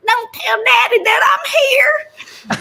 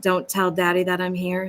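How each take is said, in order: First: Much higher, louder and slow, half-crying, half-shouting, with a laugh; ridiculous country girl. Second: Said in the usual way. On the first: Shown as a demonstration. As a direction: wail "Don't tell daddy that I'm here" high and drawn out, like an over-the-top country kid. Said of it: "I would really love to do something really ridiculous". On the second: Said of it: "So when she says".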